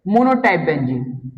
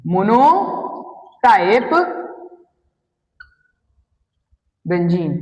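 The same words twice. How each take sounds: First: Said in the usual way. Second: Slow drawn-out. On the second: Shown as a demonstration. Teacher to class, spelling out monotype very slowly. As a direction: stretch monotype very slowly, syllable by syllable. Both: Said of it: "repeats word slowly for class".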